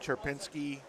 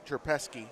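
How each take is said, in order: First: The name has an 'n' sound before 'ski'. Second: The name has no 'n' sound before 'ski'. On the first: The speaker calls it wrong. "I've been saying that wrong in the whole squad" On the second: The speaker calls it right.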